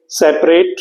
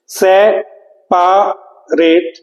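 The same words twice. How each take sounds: First: Said in the usual way. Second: separate drawn out as se, pa, rate; syllable by syllable. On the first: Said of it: "हम यदि separate बोलते हैं". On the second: Shown as a demonstration. Teacher answering what the spelling is, syllable by syllable. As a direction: say separate very slowly, a long pause after each syllable. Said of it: "तो spelling क्या होती है".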